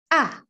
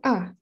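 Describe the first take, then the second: First: The vowel is said with a wide-open mouth. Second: The vowel is said with a barely open mouth. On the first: The speaker calls it right. "A itu harus selebar tiga jari kita" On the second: The speaker calls it wrong. "bukan A"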